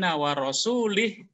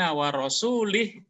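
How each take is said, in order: First: The vowel after the l is an i. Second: The same.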